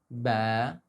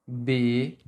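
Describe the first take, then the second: First: The vowel is open, with the mouth wide open. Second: The vowel is closed, with the mouth barely open. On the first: The speaker calls it right. "We pronounce it ba" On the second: The speaker calls it wrong. "may not open it enough, so that they pronounce it like B"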